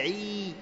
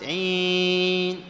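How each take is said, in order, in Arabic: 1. يُنطق حرف المد الطويل بدون غنة. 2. يُنطق حرف المد الطويل مع غنة. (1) "تقول كذا عيد بحيث أنك ما تخرج معها إيش؟ غنة" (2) "كأنك خرجت معها إيش؟ غنة مصاحبة للمد"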